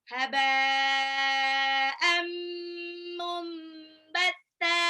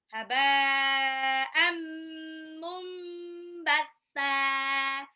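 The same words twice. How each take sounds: The two takes are said the same way.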